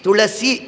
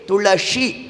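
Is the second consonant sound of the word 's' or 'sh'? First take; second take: s; sh. First: The middle syllable uses a plain 's' sound. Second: The middle syllable uses an 'sh' sound. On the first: The speaker calls it wrong. "ಬಾಯಲ್ಲಿ ಬಂದಿದ್ದು ಏನು? ಸಿ" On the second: The speaker calls it right. "ಶಕಾರ, ಶಂಕರ ಶ ಪ್ರಯೋಗ ಮಾಡಬೇಕು"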